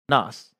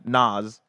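First: The name ends with an S sound. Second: The name ends with a Z sound. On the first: The speaker calls it wrong. "everybody in chat is saying I say it weird" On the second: The speaker calls it right. "like with a Z at the end"

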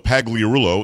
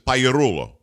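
First: The 'gli' is said with a hard G. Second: The 'gli' sounds like a Y. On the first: "So Pagliarulo in English" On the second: "as we Italians would say, you got to do your hand like this"

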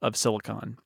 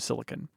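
First: The last syllable keeps a full 'on' vowel. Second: The last syllable shrinks to a bare 'n'. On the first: "changing the end of silicon" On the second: "shrink them down to n at the end instead of on"

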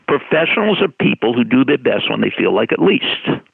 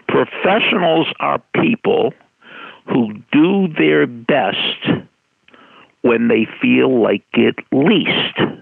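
First: It is said at a normal pace. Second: It is said a little more slowly.

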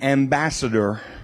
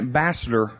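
First: Each syllable of the word is clearly enunciated. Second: The word is said quickly without careful enunciation. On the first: The speaker calls it right. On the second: The speaker calls it wrong.

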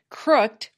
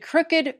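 First: The -ed ending is only a final consonant. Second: The -ed ending is a separate syllable. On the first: "If these words were pronounced like most English words ending in ed" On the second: "has the same unusual pronunciation of the suffix ed"

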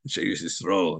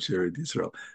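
First: The name is said in a traditional pronunciation. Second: The name is said in a modern pronunciation. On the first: The speaker calls it right. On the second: The speaker calls it wrong.

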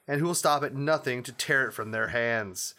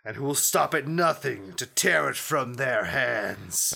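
First: The line is read in a plain, ordinary voice. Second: The line is read in a dark, sinister voice. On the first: The speaker calls it wrong. "You didn't say it in a sinister enough voice" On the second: The speaker calls it right. "That's better"

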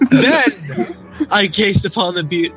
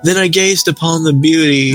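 First: The sentence is read with a pause inside it. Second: The sentence is read straight through without a pause. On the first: The speaker calls it right. "It's unnecessary" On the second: The speaker calls it wrong. "Nope. That was there's a pause there"

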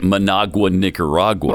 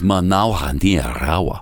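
First: The names are said with plain English sounds. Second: The names are said with native Spanish-style sounds. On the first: The speaker calls it wrong. "Why would I just call it" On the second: The speaker calls it right. "When it's ... Much better"

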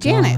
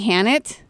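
First: The name starts with an English J sound. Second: The name starts with an H sound. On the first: It is said the English way. "But we're not in Mexico, so we say Janet" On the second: It is said the Mexican Spanish way. "if we were down in Mexico, Janet's name would be Hannet because they don't say J's"

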